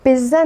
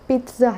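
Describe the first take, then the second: First: The middle consonant is a plain z sound. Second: The first syllable sounds like 'peet', then ts. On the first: The speaker calls it wrong. "इसकी जो pronunciation है वो पिज़्ज़ा नहीं है" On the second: The speaker calls it right. "बल्कि पिज़्ज़ा है ... जैसे पीटना होता है ना, तो ऐसे है पिज़्ज़ा"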